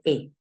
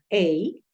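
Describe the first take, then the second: First: The vowel is a short 'eh' sound. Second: The vowel is an open 'ay' sound. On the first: "por comodidad, la gente ya no dice ey, la gente dice e" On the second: "el sonido abierto de la a, o sea, ey"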